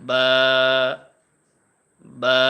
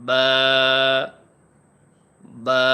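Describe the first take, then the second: No difference in how they are said.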